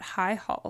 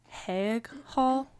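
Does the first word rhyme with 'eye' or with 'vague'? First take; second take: eye; vague. First: The first word sounds like 'high'. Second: The first word sounds like 'haig'. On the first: "So I'm going with high" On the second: "It might be Haig Hall"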